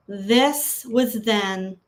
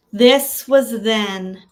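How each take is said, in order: First: Said in the usual way. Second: Louder and firmer, "This" pushed hard; said with importance. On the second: Shown as a demonstration. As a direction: declare it like you matter. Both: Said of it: "Say it like you are important".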